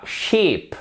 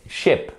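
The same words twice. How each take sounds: First: "ship" with a long, tense ee, like sheep; wrong ship. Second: "ship" with a short, lax i made further back; short vowel in ship. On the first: Teacher shows learners the mistake, "ship" with a tense ee. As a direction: mispronounce "ship" with a drawn-out French-style ee. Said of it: "ce n'est pas ship". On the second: Teacher corrects learners, "ship" with a short, relaxed i. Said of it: "Vous allez vers l'arrière". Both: Shown as a demonstration.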